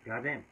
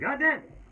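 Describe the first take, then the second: First: It is said at a normal, quiet volume. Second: It is screamed loudly.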